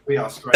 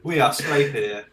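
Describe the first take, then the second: First: Loud. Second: Said in the usual way. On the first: Real, not acted. Repeats it much louder.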